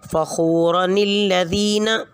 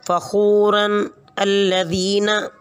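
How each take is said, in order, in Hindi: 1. शब्द एक अतिरिक्त 'ni' ध्वनि से जुड़े होते हैं। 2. शब्द अलग-अलग बोले जाते हैं, कोई अतिरिक्त 'ni' नहीं।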